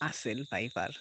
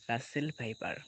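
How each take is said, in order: First: The name begins with a vowel, no R. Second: The name begins with a clear R sound. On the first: "মানে বাচ্চারা বলতো আর কি" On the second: "সাপটি হচ্ছে রাসেল viper"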